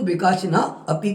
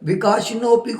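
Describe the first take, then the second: First: The word is split into two separate parts. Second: The word is said as one joined word. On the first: The speaker calls it right. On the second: The speaker calls it wrong.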